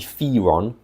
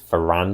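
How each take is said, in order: First: The name is said in its reported official way. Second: The name is said the way it looks written. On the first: This may be the officially intended pronunciation. "officially it might be Firon" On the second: This is how the name appears to read on the page. "because it looks like it's Ferran"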